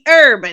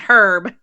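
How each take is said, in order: First: The word starts with a vowel, no H sound. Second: The word starts with an audible H sound. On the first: The speaker calls it right. "It should be herb" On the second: The speaker calls it wrong. "not herb"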